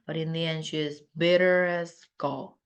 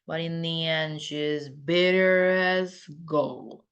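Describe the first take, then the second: First: The sentence is spoken fast. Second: The sentence is spoken slowly. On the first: "이건 빠르게 대충 날림이니까" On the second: "느리게"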